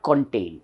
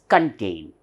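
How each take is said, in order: First: "contain" with a clear short O, "kon"; wrong pronunciation, kon-tain. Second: "contain" with a weak schwa, "kuhn-TAYN"; correct phonetic pronunciation, kun-tain. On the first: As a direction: say "contain" as "kon-TAYN", first vowel unreduced. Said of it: "it is not contain". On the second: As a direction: swallow the first vowel of "contain" to "k'n". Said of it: "the right pronunciation". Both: Shown as a demonstration.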